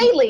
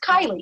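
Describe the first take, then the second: First: The first syllable sounds like 'kay'. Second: The first syllable sounds like 'kye'. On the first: The speaker calls it wrong. "looks like a Kaylee" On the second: The speaker calls it right. "but it's Kylie"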